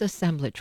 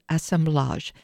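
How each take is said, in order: First: It is pronounced the American way. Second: It is pronounced the French way. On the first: "I can say the good old U.S. way" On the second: "I was making it a little French there for us"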